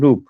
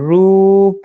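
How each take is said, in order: First: The vowel is kept short. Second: The vowel is drawn out long. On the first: "ছোট্ট করে বলবে" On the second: "টেনে বলতে হবে"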